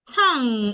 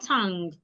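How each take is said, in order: First: It ends in ng with no hard g. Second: It ends in ng with a hard g. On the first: The speaker calls it right. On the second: The speaker calls it wrong.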